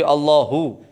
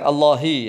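First: The word ends with an 'oo' vowel. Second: The word ends with an 'ee' vowel. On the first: The speaker calls it right. "Tapi Allahu, hu dhammah" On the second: The speaker calls it wrong. "jangan Allahi ya"

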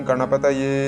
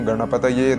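No difference in how they are said.

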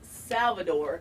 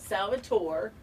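First: The name ends with a 'dor' sound. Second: The name ends with a 'tore' sound. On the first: The speaker calls it right. "it's Salvador" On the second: The speaker calls it wrong. "not Salvatore"

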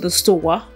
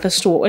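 First: It is said in a Rhode Island accent. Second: It is said in a general accent. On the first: "I talk like this" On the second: "not the store"

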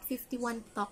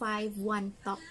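First: The number is read as fifty-one. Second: The number is read as five-one. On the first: The speaker calls it wrong. "it's not 51 Talk pala" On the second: The speaker calls it right. "it's 5-1 Talk"

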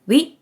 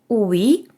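First: The two vowel sounds glide quickly together. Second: The two vowel sounds are said apart. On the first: "Чим швидше ви будете їх вимовляти" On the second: "У плюс і так і виходить"

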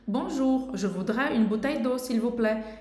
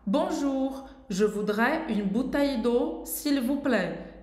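First: The sentence is spoken quickly. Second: The sentence is spoken slowly. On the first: "ir falando mais rápido para ficar mais natural" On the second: "mas estou falando devagar"

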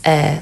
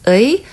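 First: The vowel is pronounced as a plain 'e'. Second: The vowel is pronounced as a slow 'ui'. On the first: "normally when you pronounce this word at the end with something, as a possessive, you pronounce it as 에" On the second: "if you pronounce it slowly, it's pronounced as 의"

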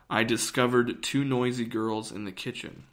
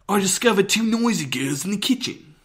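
First: It is spoken in the speaker's usual American accent. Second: It is spoken in a British accent. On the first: "I'll tell you what I said" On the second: "I couldn't do like a British accent... here's one"

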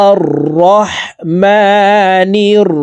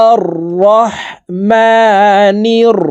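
Both takes have the same delivery.

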